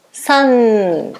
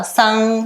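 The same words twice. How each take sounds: First: "san" drawn out onto a long sounded N; drawn-out model of "san"; correct held N. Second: "san" as a Portuguese nasal vowel, no N closure; wrong nasal ending. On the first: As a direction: close "san" with tongue on teeth and hum the N. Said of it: "O N vai ficar preso aqui no dente". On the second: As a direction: say "san" leaving the tongue off the teeth at the end. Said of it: "Não vai falar san". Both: Shown as a demonstration.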